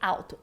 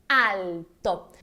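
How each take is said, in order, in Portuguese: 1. O som do L é fraco, como em português. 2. O som do L é forte e bem marcado. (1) "como no português" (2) "Ela tem um som bem marcante"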